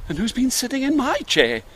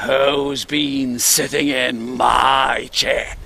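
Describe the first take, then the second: First: High-pitched, gentle mummy bear; kind, polite mother bear. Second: Very slow, growling big bear; deep, gruff father bear. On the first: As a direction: enquire sweetly and politely, well pitched up. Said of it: "in a kind, polite voice". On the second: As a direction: draw it out as a gruff daddy bear. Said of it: "in his deep, gruff voice". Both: Acted.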